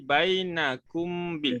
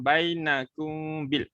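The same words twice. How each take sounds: First: The m is said clearly with closed lips. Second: The m is hidden with a held nasal hum. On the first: The speaker calls it wrong. "Kalau rapat dia jadi bainakum bil" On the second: The speaker calls it right. "kita baca by dan dengung eh"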